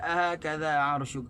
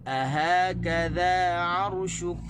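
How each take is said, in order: First: The first syllable a is stressed. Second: Stress falls on ha and on ka. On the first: The speaker calls it wrong. "Kita tak boleh baca ... Di a tu tak boleh tekan" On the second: The speaker calls it right. "tekan di ha dan tekan di kaf"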